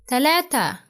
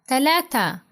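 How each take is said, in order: No difference in how they are said.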